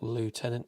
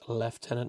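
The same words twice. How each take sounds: First: It uses the American pronunciation, like lootenant. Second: It uses the British pronunciation, like leftenant. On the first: The speaker calls it wrong. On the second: The speaker calls it right. "That's the correct way of saying it for you Americans"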